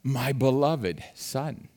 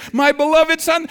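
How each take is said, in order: First: Soft, slow father's murmur; tender father. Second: High, loud delighted exclaim; proud father. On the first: Father gazing at his newborn baby, soft and tender. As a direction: coo it softly over the newborn. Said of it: "what does he say?". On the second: Father bursting with pride over his newborn, high and loud. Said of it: "Isn't that what the father says?". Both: Retold or imitated.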